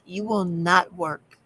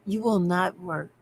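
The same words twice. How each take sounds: First: "will" stressed, whole line slowed; slow emphatic will. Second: "will" pressed down, falling; stress on will. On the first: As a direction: spell out "You will not work" slowly. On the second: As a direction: hammer the word "will". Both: Shown as a demonstration.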